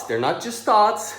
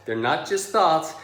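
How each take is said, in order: First: "they're not just thoughts" said higher, slower, stressing thoughts; emphatic repeat. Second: Said in the usual way. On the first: Shown as a demonstration.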